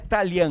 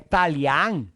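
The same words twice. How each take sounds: First: The A vowels are closed and weak. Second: The A vowels are open and strong. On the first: The speaker calls it wrong. "Não é Talian, não existe Talian" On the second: The speaker calls it right. "são duas A abertas, fortes"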